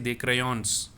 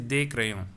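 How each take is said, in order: First: The final s of crayons is pronounced. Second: The final s of crayons is silent. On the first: The speaker calls it wrong. "I will not say des crayons" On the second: The speaker calls it right. "I will say des crayons. That means I am not going to pronounce this s"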